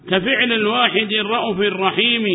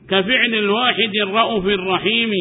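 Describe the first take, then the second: Both takes have the same delivery.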